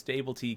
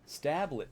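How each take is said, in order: First: It is said as three syllables, sta-ble-tee. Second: It is said as two syllables, sta-blet. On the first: The speaker calls it right. "I think it's Stable T K" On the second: The speaker calls it wrong. "Why did I think it would be Stablet?"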